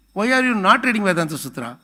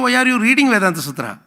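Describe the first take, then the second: First: "are" pushed a little, no big lift; "are" leads, "reading" stays level; stress on are. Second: "reading" hit higher and louder; "reading" pushed up in a louder quoted question; stress on reading. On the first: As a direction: lean on "are" in the quoted question. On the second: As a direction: punch the word "reading". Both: Shown as a demonstration. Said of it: "I am not asking you".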